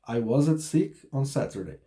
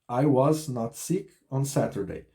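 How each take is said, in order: First: Was and not are joined into one word. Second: Was and not are said as separate words. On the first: "Contração aqui da forma negativa" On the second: "seria o não, né, em português, na frente do verbo to be"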